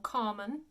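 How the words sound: It is said in an English accent from England. The speaker calls it wrong. "or Carmen if you are from England"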